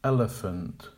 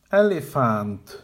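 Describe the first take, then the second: First: "Elephant" as EL-uh-funt, first syllable strong; correct with schwas. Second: "Elephant" with a full -FANT ending, slow; incorrect full vowels. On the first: Teacher modelling the correct "Elephant". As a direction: keep the end of "Elephant" weak. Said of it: "Make the weak syllables quiet". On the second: Teacher modelling the wrong "Elephant". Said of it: "the incorrect pronunciation". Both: Shown as a demonstration.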